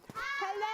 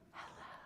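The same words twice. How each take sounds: First: It is said very loudly. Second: It is said very quietly.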